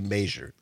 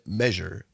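First: It is said in a local small-town pronunciation. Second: It is said in a general pronunciation. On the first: This is how people in one town say it. "in Richland Center we say measure" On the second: This is how most people say it. "I know most people say measure"

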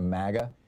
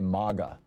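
First: The first vowel sounds like the one in maggot. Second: The first vowel is broad, like the one in father. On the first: "It sounds too close to maggot" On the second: "hey, we're in Europe now"

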